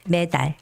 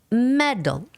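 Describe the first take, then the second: First: Both syllables get the same stress. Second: The stress is on the first syllable. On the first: The speaker calls it wrong. "in Korean we say medal, medal. So we give the same stress for me and 달" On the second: The speaker calls it right. "in English, the stress goes on E and there's no stress for A"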